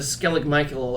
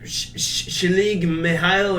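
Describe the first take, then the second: First: The name begins with a hard 'sk' sound. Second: The name begins with a soft 'sh' sound. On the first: The speaker calls it wrong. "I we're mispronouncing that" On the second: The speaker calls it right. "It's actually like Shalig Mihail or something"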